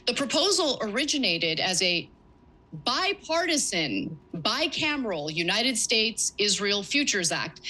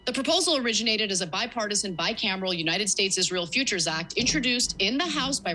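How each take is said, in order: First: Bipartisan stretched out and pitched up for emphasis; stress on bipartisan. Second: Said in the usual way. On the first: Shown as a demonstration. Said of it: "Let me just emphasize the word bipartisan". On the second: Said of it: "emphasize the word bipartisan once more".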